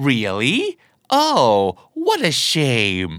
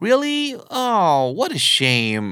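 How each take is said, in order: First: Low, slow "Really?" with fake regret; drawn-out, insincere "what a shame"; sarcastic regret. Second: High surprised "Really?", then a drawn-out regretful sigh of words; acted, honest letdown, slow on "what a shame"; sincere disappointment. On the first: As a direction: feign disappointment while secretly relieved. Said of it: "ถ้าอารมณ์น้ำเสียงมาประมาณนี้". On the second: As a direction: sound sorry to hear the plan is off. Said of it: "โอ้ น่าเสียดายจังเลยเนาะ". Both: Shown as a demonstration.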